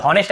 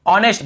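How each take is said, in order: First: "हॉनेस्ट" with the H sounded; common mispronunciation. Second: "ऑनेस्ट" starting on the vowel; correct pronunciation. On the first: Retold or imitated. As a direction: start "हॉनेस्ट" on an audible h, as hon-est. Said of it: "बहुत से लोग हॉनेस्ट ऐसे बोल देते हैं". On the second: Shown as a demonstration. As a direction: say "ऑनेस्ट" as on-est, H silent. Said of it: "केवल ऑनेस्ट पढ़ना है".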